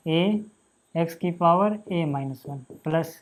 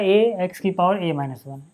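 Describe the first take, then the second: First: Very slow board dictation. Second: Slow, spelled-out dictation pace; slow board dictation. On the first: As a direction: drag each word out while writing it on the board. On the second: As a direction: read the term slowly as you write it. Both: Shown as a demonstration. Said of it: "teacher dictating slowly".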